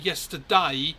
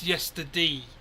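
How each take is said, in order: First: The word ends with a 'day' sound. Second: The word ends with an 'ee' sound. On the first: "I don't say yesterday" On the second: "it's yesterday"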